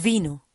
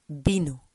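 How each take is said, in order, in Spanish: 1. Empieza con sonido v. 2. Empieza con sonido b. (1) "Nunca decimos vino" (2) "Siempre vino, vino, como una B"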